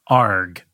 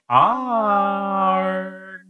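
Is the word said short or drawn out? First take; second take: short; drawn out. First: The word is said short. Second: The word is drawn out long.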